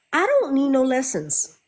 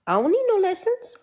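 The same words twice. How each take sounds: First: Raised, firm refusal with stress on don't; firm mock refusal; defiant retort. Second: Put-on high, petulant kid voice repeating it; squeaky childish I don't need no lessons; mock bratty kid. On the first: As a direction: say don't need no lessons flatly defiant. First take, firmer. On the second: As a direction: play a sulky child refusing.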